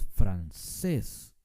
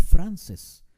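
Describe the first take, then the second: First: "francés" very slow, with a long stressed CÉS; stress on last syllable. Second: "francés" wrongly punched loud on FRAN; stress on first syllable. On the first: Teacher showing "francés" with much emphasis at the end, on CÉS. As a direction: stretch the end of "francés": fran-CEEES. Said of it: "con mucho énfasis al final". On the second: Teacher showing how we don't say "francés", stressed on FRAN. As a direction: say FRAN-ces, hitting the opening syllable of "francés". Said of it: "No decimos francés". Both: Shown as a demonstration.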